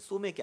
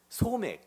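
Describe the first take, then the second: First: The word is said the casual everyday way. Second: The word is said the careful, precise way. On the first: It names the soju and beer drink. The speaker calls it wrong. "여러분이 잘 말하듯이는 소맥이 아니라" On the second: It names wheat, the small grain. The speaker calls it right. "작은 맥"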